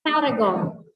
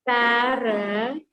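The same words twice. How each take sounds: First: Said in the usual way. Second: "Paragon" very slow, drawn out syllable by syllable; split into syllables. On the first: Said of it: "here it will be pronounced". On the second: Shown as a demonstration. Teacher showing three syllables to class, "Paragon" slowly broken up. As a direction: stretch "Paragon" into three separate parts. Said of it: "Three syllables".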